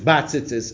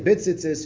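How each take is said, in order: First: The first vowel is a full a sound. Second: The first vowel is a short, reduced i sound. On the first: "the majority of the Achroinim say to say batzitzis" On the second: "the Mechaber says to say bitzitzis"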